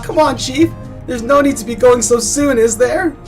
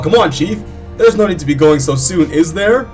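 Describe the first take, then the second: First: It is said in a normal, not deepened voice. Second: It is said in a deep put-on voice. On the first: The speaker calls it wrong. "I forgot to give him a deep voice" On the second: The speaker calls it right. "give him a deep voice"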